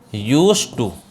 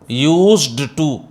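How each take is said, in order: First: No d sound is pronounced before 'to'. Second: A d sound is pronounced before 'to'. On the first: The speaker calls it right. "डी silent होता है" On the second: The speaker calls it wrong. "ये ऐसे मत बोलना आप"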